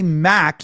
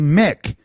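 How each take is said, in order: First: The vowel sounds like the one in 'cat'. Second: The vowel sounds like the one in 'sit'. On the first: The speaker calls it wrong. "you don't say Mac" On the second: The speaker calls it right. "you say Mick"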